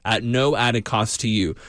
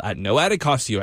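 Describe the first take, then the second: First: "no added cost to you" slowed and stressed; emphatic repeat. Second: Said in the usual way. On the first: Real, not acted. Host emphasizes no added cost to donors, slow and emphatic. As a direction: lean slowly on each word of "no added cost". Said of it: "but I emphasize it".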